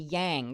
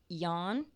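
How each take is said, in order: First: The word rhymes with twang. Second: The word does not rhyme with twang. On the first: This is the version Westerners understand. "I had to change how I said it to yang, because Westerners understand" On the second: This is the traditional pronunciation. "I've always heard it as yan"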